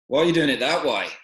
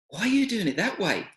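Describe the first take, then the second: First: The question sounds scornful and dismissive. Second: The question sounds open and curious. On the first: The asker is criticising the method. The speaker calls it wrong. "disregard the second" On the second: The asker genuinely wants to understand. The speaker calls it right. "we listen to the first"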